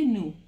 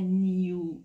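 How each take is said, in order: First: No y glide follows the n: noo. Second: A y glide follows the n: nyoo. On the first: This is the American way of saying it. "لهجه امریکن میگه نو" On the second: This is the British way of saying it. "بریتیشا بچه ها اکثرا میگن نیو"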